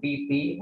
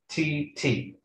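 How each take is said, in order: First: The t is plain, with no puff of air. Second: The t is aspirated, with a puff of air. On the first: This is how Indonesians say it. "Kalau orang Indonesia mengatakan titi" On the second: This is how it sounds in English. "Dalam bahasa Inggris menjadi cici"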